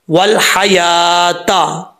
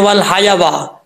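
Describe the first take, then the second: First: वल हयाता very slow, yaa held long, no waw sound; correct slow reading. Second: वल हयावा with a wrongly added waa at the end; common misreading. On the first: Shown as a demonstration. Teacher modelling how to read it, slow drawn-out recitation. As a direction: stretch the aa in हयाता, then a clean taa. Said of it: "तो कैसे पढ़ेंगे?". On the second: Retold or imitated. Teacher quoting what people often misread, wrong extra waa. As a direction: imitate learners adding waa to हयावा. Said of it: "अक्सर लोग पढ़ते हैं".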